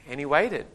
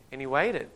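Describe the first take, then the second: No difference in how they are said.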